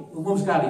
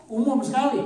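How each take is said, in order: First: Said in the usual way. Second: Higher and louder, punched out; emphatic. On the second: Shown as a demonstration. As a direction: stress Umum sekali hard and high.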